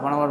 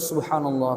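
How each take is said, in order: First: It is said fast and rushed. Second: It is said slowly and calmly.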